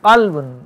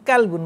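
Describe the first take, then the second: First: It begins with a deep, back-of-throat q sound. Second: It begins with a plain, front k sound. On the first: It means heart. The speaker calls it right. "কালবুন অর্থ হচ্ছে অন্তর" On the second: It means dog. The speaker calls it wrong. "আপনি কাপ দিয়ে বলেন কালবুন মানে হচ্ছে কুকুর"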